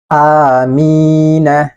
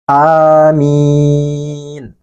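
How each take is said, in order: First: The final letter is pronounced with a vowel. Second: The word ends on a bare, unvoweled consonant. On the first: The reading continues without stopping. "ini kan hidup nih hurufnya, berharokat fathah" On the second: The reader stops at this word. "huruf nunnya menjadi sukun karena dia waqaf atau berhenti"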